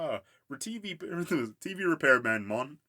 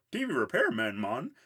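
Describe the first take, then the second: First: Mock Jamaican accent, loud and high; hammed-up Jamaican accent, breaking into laughter. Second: Dopey Billy voice. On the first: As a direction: imitate Grimm in a Jamaican accent. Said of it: "Grimm has a Jamaican accent". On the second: Retold or imitated. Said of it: "And Billy says".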